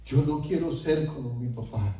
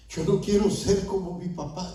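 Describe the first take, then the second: First: Said in the usual way. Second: Higher-pitched, imploring repeat; pleading prayer. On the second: Retold or imitated. Repentant father pleads with the Lord, higher and imploring. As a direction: raise the pitch into a retold plea to God. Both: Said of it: "Y yo le empecé a decir al Señor".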